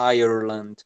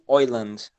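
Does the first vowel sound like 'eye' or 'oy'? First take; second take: eye; oy. First: The first vowel sounds like 'eye'. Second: The first vowel sounds like 'oy'. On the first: "ou então puxando o R" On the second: "Então eles falam tipo Oiland"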